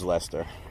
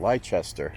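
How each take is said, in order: First: The name is said the local, shortened way. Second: The name is said just as it is spelled. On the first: This is how locals say it. The speaker calls it right. "So I knew it was" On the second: This is how an outsider would read it. The speaker calls it wrong. "anyone else would pronounce that"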